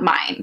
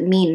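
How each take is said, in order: First: The word sounds like 'mine'. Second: The word sounds like 'mean'. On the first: The speaker calls it wrong. "not mine" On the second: The speaker calls it right. "You pronounce it mean"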